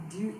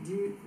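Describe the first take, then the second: No difference in how they are said.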